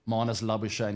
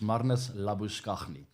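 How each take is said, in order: First: The surname has the anglicized Australian pronunciation. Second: The surname has the original South African pronunciation. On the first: This is the version of the name he uses now. The speaker calls it wrong. "I know he likes to go by that name these days, but he'll never be" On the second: This is the name as it is said back home. The speaker calls it right. "in South Africa. It's"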